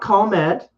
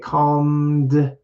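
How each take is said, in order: First: The word ends in a voiceless t sound. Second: The word ends in a voiced d sound. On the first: The speaker calls it wrong. "not calmet" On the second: The speaker calls it right. "the voice just keeps going in English"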